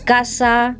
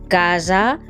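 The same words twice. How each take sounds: First: The s sound is voiceless, a hiss. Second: The s sound is voiced, with buzzing. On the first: The speaker calls it wrong. "No decimos" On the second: The speaker calls it right. "la esa sonora"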